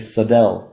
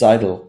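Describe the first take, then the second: First: The name is said with an American pronunciation. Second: The name is said with its original pronunciation. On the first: This is how most people in the USA say it. The speaker calls it wrong. "in the U S A, most people say Sadel" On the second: This is the proper form of the name. The speaker calls it right. "but it's Seidel"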